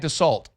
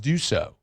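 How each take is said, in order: First: The name is said like dah-salt. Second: The name is said like doo-so. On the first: The speaker calls it wrong. "How many people do you think call that guy Dassault?" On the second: The speaker calls it right. "it's Duso"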